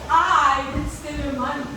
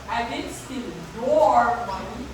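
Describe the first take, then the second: First: The word I carries the stress. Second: The word your carries the stress. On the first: Someone else stole the money. "So the emphasis was in I" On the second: The money stolen belonged to someone else. "so the emphasis was in your"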